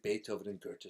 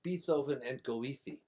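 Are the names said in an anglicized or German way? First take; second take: German; anglicized. First: The names are said with German pronunciation. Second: The names are said with anglicized pronunciation. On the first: This is how the names should be said. The speaker calls it right. "They were supposed to be Beethoven and Goethe streets" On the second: This is how the local people said the names. The speaker calls it wrong. "nobody except the builder knew how to pronounce the name, so they called it"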